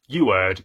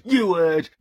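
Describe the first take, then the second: First: Said in the usual way. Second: High, loud insistent retort; defiant repeat. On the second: Acted. Vlogger defends renaming The Alchemist, high defiant retort. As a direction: push it up defiantly.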